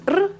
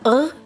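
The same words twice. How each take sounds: First: The R sounds like an Italian R. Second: The R sounds like a French R. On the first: "like the Italian R" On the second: "like the French R"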